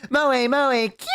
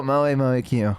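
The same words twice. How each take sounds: First: High, cute maid chant; cutesy maid. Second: Low, unenthused cute chant; reluctant maid chant. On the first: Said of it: "where a maid is giving me heart-shaped things". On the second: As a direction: say the chant as if forced to. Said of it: "So I'm gonna have to go". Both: Acted.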